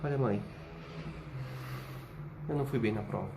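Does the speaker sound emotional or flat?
emotional. It is said with feeling behind the words. Bad consequences are feared beneath the words. The speaker calls it right. "Qual é o subtexto?"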